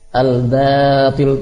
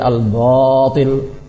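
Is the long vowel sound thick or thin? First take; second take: thin; thick. First: The long vowel is pronounced thin and light. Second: The long vowel is pronounced thick and heavy. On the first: The speaker calls it right. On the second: The speaker calls it wrong.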